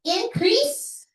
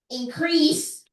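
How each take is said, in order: First: The stress is on the first syllable. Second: The stress is on the second syllable. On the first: It is a noun. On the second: It is a verb.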